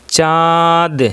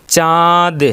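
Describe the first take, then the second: Both takes have the same delivery.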